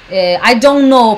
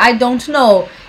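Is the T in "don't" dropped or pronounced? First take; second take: dropped; pronounced. First: The T in don't is dropped. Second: The T in don't is pronounced. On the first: "Eu geralmente não falo T de don't" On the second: "Eu não falaria"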